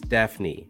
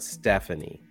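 First: The name is said with two syllables. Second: The name is said with three syllables. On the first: The speaker calls it right. "her name is Stephanie" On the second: The speaker calls it wrong. "not Stephanie"

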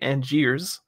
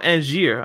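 First: The final s is sounded. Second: The final s is silent. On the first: The speaker calls it wrong. "I'm never going to say Angiers" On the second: The speaker calls it right. "I know not to pronounce the S"

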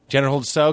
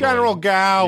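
First: The name starts with a ts or s sound. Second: The name starts with a hard g sound. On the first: This is the widely used pronunciation. The speaker calls it right. "have you always said so?" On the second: This is the local Boston pronunciation. The speaker calls it wrong. "we say General Gao"

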